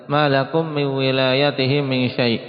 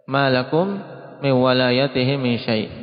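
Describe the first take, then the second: First: The vowel after the first w is i. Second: The vowel after the first w is a. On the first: "malakum min wilayatihim dengan kasrah wawu. Ini qiraah Hamzah" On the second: "membacanya dengan fathah sebagaimana yang kita baca"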